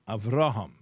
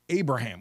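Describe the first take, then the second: First: The name is said in its original Hebrew form. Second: The name is said in its anglicized form. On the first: This is how the name's bearer pronounced it. The speaker calls it right. "The word is Avraham, the name" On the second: This is the form the name took in English. The speaker calls it wrong. "What's Abraham? I don't even like it"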